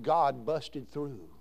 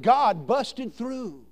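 First: Low, very slow and hushed; slow, reverent quote. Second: Very slow and louder, each word punched; slow emphatic quote. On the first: Pastor recalling revival, low and drawn out. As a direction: draw it out low, like the old pastor did. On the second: Preacher repeating the pastor's words, slow and loud. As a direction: proclaim "God busted through" with weight on God. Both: Retold or imitated. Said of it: "That's how he said it".

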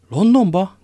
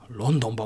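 First: High, loud incredulous LONDONBA; astonished exclamation. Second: Said in the usual way. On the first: A narrator's reading. Porthos echoes D'Artagnan's destination, crying out in astonishment. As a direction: cry out the question in disbelief. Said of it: "kiáltott fel Porthos".

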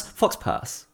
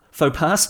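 First: "fox pass" with a hard "foks"; "fox pass", x and s sounded; wrong pronunciation. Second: "faux pas" as "foh pah"; "faux pas" with a silent x; correct pronunciation. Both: Shown as a demonstration. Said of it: "I'm mixing them up now".

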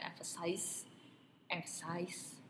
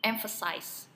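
First: Emphasize with stress on the last syllable; wrong stress at end. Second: Emphasize stressed on the first syllable. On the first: Showing the co-host the wrong way: emphasize stressed at the end. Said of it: "penekanannya di belakang". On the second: Teaching the co-host: stress at the start of emphasize. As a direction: lean on the front of emphasize. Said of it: "kita kasih tekanannya itu di depan". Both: Shown as a demonstration.

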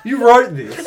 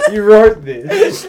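First: Higher and louder, half-laughing accusation; amused disbelief. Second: Slow, louder, breaking into laugh-crying; dragged out between laughs, almost in tears; laughing it again. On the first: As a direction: caught out, pointing the finger at the writer. Friend reads the script's accent line. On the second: Repeats it, cracking up. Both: Real, not acted.

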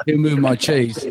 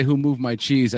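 First: Laughing, imitating a Cockney accent; mock Cockney accent. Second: Said in the usual way. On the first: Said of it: "or your accent". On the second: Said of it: "your accent".

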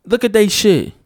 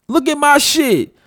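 First: They punched higher and louder; stress on they. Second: My pitched much higher, said slowly; stress on my. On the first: Pointing at other people's hair, stressing they. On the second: Pointing at his own hair, slow stress on my. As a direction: land slowly on my, showing your own hair. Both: Shown as a demonstration.

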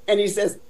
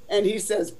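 The two takes are said the same way.

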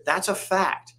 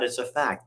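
First: That's a fact said much higher, with a hard fall on fact; pitched-up, final-sounding That's a fact; emphatic insistence. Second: Said in the usual way. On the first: Real, not acted.

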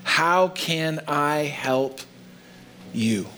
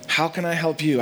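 First: Slow, deliberate question. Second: Said in the usual way. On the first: Shown as a demonstration. Pastor to congregation, slow earnest question. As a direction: draw out how can I help you. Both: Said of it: "Powerful follow-up question".

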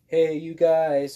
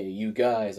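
First: Put-on loud, high, slow shout like the Goonies kid; Goonies call. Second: Said in the usual way. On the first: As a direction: stretch it out and call it across the room, Goonies style. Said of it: "just like from the Goonies". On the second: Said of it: "If I say".

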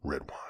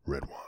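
First: Hushed, low whisper on Red wine. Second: Low and soft, drawing out red wine. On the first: Host repeats it for the listeners, whispered. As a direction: breathe Red wine like a secret. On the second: Podcast host tells listeners how to say it, low hushed voice. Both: Shown as a demonstration. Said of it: "you gotta say it like that".

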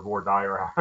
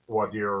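First: "voir dire" with dire rhyming with fire; anglicized "voir dire", dire said "dyer". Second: "voir dire" with dire rhyming with deer; French-leaning "voir dire", dire said "deer". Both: Shown as a demonstration. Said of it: "however you want to say that".

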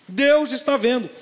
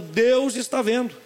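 First: Deus mais forte, devagar; stress on Deus, louder. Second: Deus dito devagar e forte; stress on Deus. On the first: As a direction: repita gritando Deus. (Deus repetido com mais força) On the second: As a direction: martele a palavra Deus. (Deus bem marcado e lento) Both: Shown as a demonstration.

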